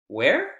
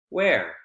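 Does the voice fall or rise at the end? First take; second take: rise; fall. First: The pitch rises at the end of the word. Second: The pitch falls at the end of the word. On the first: The speaker wants the information repeated. "Repeating, right? Asking someone to please repeat the information" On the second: The speaker is asking for more exact information. "Information in terms of where exactly on the bus"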